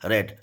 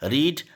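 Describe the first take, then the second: First: Read has a short e vowel. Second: Read has a long ee vowel. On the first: It is the past form. "रीड की second form रेड होती है" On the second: It is the present form. "First form"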